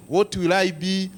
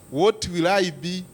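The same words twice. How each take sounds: The two takes are said the same way.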